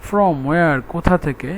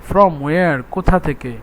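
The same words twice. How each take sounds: The two takes are said the same way.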